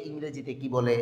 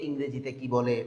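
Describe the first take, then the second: No difference in how they are said.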